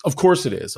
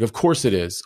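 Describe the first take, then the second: First: "Of course it is" jumps much higher; high emphatic repeat. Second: Said in the usual way. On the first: Retold or imitated. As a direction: say "Of course it is" again, pitched far up.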